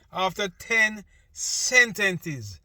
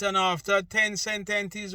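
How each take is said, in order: First: Slow, louder, leaning on ten; stress on ten. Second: Said in the usual way. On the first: Shown as a demonstration. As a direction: draw out after ten sentences and hit ten.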